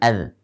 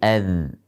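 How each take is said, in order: First: The final consonant stops short without flowing. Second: The final consonant flows on softly with voice. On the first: The speaker calls it wrong. "bukan ad" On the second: The speaker calls it right. "Dia mengalir pada suaranya"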